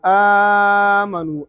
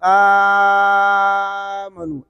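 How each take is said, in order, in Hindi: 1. पहला स्वर मध्यम लंबाई में खींचा जाता है। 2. पहला स्वर लंबा खींचा जाता है। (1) "फिर तवसुत" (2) "फिर तूल"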